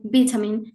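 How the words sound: It is said with a British pronunciation. "in the United Kingdom"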